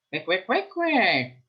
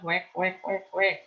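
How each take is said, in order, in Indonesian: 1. Diucapkan dengan meniru logat Ambon. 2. Diucapkan dengan logat daerah asli penuturnya. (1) "itu mengejek logat bahasa teman kita" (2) "kalau di kita itu kan bebek bunyinya"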